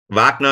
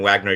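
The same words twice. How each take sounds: First: The name is said with a German pronunciation. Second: The name is said with an American pronunciation. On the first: This is how it is said in Germany. "Wagner is the German way to say it" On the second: This is how it is said in the United States. "and Wagner here in, in the States"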